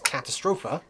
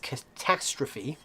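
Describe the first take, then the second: First: It is said with a German pronunciation. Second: It is said with an English pronunciation. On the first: "the German pronunciation is Katastrophe" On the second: "it says catastrophe"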